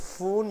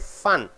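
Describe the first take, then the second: First: The vowel is a long 'oo' sound. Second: The vowel is a short 'uh' sound. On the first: The speaker calls it wrong. "You don't say foon" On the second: The speaker calls it right. "You say fun"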